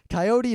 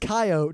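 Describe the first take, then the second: First: It is said the Eastern US way. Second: It is said the Western US way. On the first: "it's Coyote to all you uh, Easterners here" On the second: "It's Coyote to people in the West who actually know what the hell that dog is"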